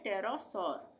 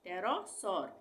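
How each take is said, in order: The two takes are said the same way.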